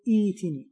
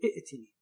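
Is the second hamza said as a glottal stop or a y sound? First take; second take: y sound; glottal stop. First: The second hamza is softened into a y sound. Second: The second hamza is kept as a glottal stop. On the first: The speaker calls it right. "فإنك تقلب الهمزة الثانية إلى ياء، فتقول ائتني" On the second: The speaker calls it wrong. "ولا تقول ائتني"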